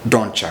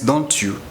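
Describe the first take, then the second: First: The t and you blend into a cha sound. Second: The t and you are said as separate sounds. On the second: "which means don't you"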